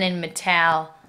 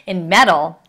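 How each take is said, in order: First: Me-TAL, mispronounced with end stress; metal stressed on second syllable. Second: Said in the usual way. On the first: Real, not acted. Teacher slipping on a spelling word, metal said as me-TAL. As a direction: say metal wrongly as "muh-TAL". Slip, corrected two lines later.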